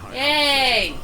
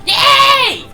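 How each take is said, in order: First: It is said with modest enthusiasm. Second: It is said with much more enthusiasm.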